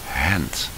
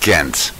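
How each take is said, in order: First: Ghent is said the local Ghent way. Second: Ghent is said the English way. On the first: "the people there say Hent" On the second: "in American or English"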